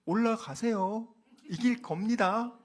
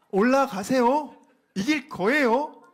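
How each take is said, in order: First: Slow, drawn-out mock encouragement; sarcastic. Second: Higher, louder, slow mocking cheer; mock him with exaggerated cheer; loud sarcasm. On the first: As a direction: say it as a sneer, slow. (빈정거리듯 천천히) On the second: (크고 높게 비아냥거리며) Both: Shown as a demonstration. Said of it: "요렇게 말을 하는 거예요".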